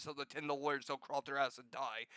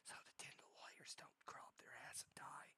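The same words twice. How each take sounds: First: Said in the usual way. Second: Very soft, secretive whisper; ASMR whisper. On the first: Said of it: "Did you hear that? I said". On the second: Shown as a demonstration. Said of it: "It's not a time for A S M R".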